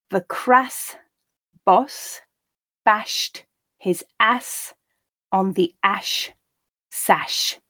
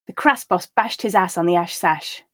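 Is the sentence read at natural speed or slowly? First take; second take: slowly; natural speed. First: The sentence is read slowly. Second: The sentence is read at natural speed. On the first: "the first time quite slowly" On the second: "the second time and third time at a more natural pace"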